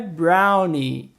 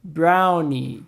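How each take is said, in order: Both takes have the same delivery.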